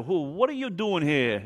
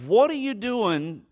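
First: Hammed-up New York accent; light mock New York accent, questioning. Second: High, drawn-out disbelieving question; higher-pitched mock astonishment; incredulous. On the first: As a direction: try it as a New Yorker. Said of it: "I wonder if she had a New York accent". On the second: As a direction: stretch it out slowly, taken aback. Acting the woman's startled question.

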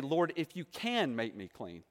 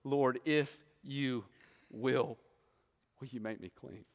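First: "can" leaned on, falling, the doubting version; "if you can" stressed as the wrong prayer; the word "can" made the point of doubt. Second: "will" set apart by pauses, slow and softer; "if you will" drawn out with humble pauses; slow stress on will. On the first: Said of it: "Notice he doesn't say". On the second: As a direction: let "will" hang, the prayer trailing off quietly. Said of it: "What does he say?". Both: Shown as a demonstration.

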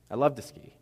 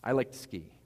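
First: "love" punched louder; emphatic, heartfelt "love"; stress on LOVE. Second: Said in the usual way. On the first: Real, not acted. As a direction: hit the word "love" hard, upgrading it. Corrects "like" to stronger "love.

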